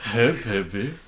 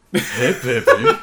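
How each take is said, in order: First: Said in the usual way. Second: Slow raspy mugger voice; low threatening jittery hiss. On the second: Retold or imitated. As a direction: leer at them like a street mugger. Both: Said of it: "I listen to it sometimes".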